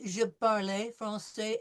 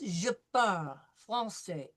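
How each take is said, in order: First: The word 'parle' ends with an 'ay' vowel. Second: The word 'parle' ends with no vowel sound. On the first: The speaker calls it wrong. "so don't say" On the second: The speaker calls it right. "There is no A sound, it's parle"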